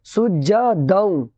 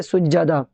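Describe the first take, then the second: First: सुज्जा दाऊं ending in nasal "daun"; joined form. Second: सुज्जदा ending on an open "aa"; pausal form. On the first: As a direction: end सुज्जा दाऊं on a nasal glide for joining. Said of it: "मिला करके इसको इस तरीके से". (सुज्जा दाऊं, मिला कर पढ़ने वाला उच्चारण) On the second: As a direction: stop on सुज्जदा with no nasal ending. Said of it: "अगर यहाँ रोकेंगे तो क्या बोलेंगे". (सुज्जदा, रुकने वाला उच्चारण) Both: Shown as a demonstration.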